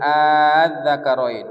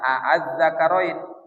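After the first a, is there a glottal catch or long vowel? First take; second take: long vowel; glottal catch. First: The opening vowel is drawn out long, no glottal catch. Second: A glottal catch follows the first short vowel. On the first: "Panjang, ya"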